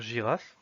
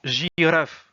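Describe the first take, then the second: First: Said in the usual way. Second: Girafe said as slow Russian, rolled r; Russian pronunciation. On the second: Shown as a demonstration. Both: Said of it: "qui veut dire girafe".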